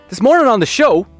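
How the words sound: The pitch goes up and down, sounding lively.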